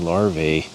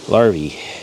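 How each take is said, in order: First: The word ends with an 'ay' vowel sound. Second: The word ends with an 'ee' vowel sound. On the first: The speaker calls it wrong. "we always say larvae as a plural for larva" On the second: The speaker calls it right. "it's not the A that makes the sound, it's the E"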